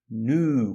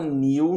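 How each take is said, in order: First: No y glide comes before the vowel. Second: A y glide comes before the vowel. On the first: "mas no inglês americano é new" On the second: "Você pode falar new no inglês britânico"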